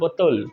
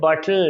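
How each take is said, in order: First: It is said the Bengali way, as 'botol'. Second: It is said the English way, as 'bottle'. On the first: The speaker calls it wrong. "Not বোতল" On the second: The speaker calls it right. "I would say বটল"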